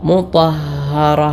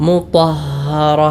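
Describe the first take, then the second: Both takes have the same delivery.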